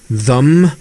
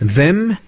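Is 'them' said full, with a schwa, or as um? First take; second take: schwa; full. First: The vowel is weakened to a schwa. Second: The word has a full vowel and clear th. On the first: "슈아 발음으로 바뀌고" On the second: "삼 단계의 변환"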